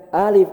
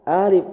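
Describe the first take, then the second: Both takes have the same delivery.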